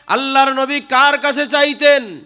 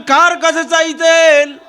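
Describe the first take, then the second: First: Said in the usual way. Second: High, drawn-out rallying shout; loud call. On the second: Shown as a demonstration. Preacher asks the crowd to answer out loud, loud call. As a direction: throw the question out loudly and stretch it. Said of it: "আওয়াজ দিয়া বলেন".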